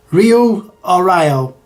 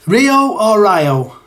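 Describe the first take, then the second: First: Slow Rio, ree-o, against Ryo, rye-o; weighing two pronunciations. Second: Rio as ree-o, then Ryo as rye-o, slowly; weighing two pronunciations. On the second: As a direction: compare Rio and Ryo, drawn out. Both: Shown as a demonstration.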